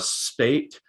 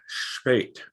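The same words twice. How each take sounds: First: It begins with a plain s sound. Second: It begins with an sh sound. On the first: The speaker calls it wrong. "I say more of the spate" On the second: The speaker calls it right. "I hear more of a like an esh spate"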